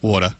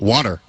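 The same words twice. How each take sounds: First: It is said with an Australian accent. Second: It is said with an American accent. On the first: "Now say it in Australian way" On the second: "you want me to say water in an American way?"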